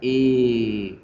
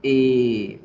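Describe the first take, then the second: The two takes are said the same way.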